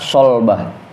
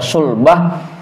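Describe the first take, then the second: First: The first vowel is an "a" sound. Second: The first vowel is a "u" sound. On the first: "wa fathiha, dan fathahnya" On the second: "dengan domah huruf sod"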